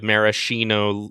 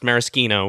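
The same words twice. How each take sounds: First: The middle consonant is a soft sh sound. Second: The middle consonant is a hard k sound. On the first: It names the cherries, a corrupted form. "more of that kind of pronunciation" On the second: It names the liqueur, as in Italian. "with the hard like ch or k sound as you would in Italian"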